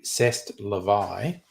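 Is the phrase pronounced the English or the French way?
French. It is said with a French pronunciation. The speaker calls it right.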